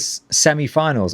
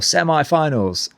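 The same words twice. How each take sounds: First: It is said in a non-American accent. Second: It is said in an American accent.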